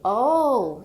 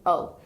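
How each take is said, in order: First: It sounds surprised. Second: It sounds unsurprised and flat.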